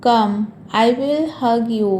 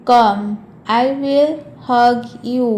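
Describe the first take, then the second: First: Said in the usual way. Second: COME, then I WILL, HUG, YOU spaced out. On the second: Shown as a demonstration. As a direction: stretch it out, separating HUG and YOU. Slower repeat for learners.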